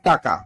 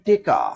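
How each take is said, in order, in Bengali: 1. taka বলা হয়েছে, মাঝে k আছে। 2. teka বলা হয়েছে, e আর k দিয়ে। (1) "প্রভৃত উচ্চারণ টাকা" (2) "কোন অঞ্চলে কয় টেকা ... ময়মনসিং"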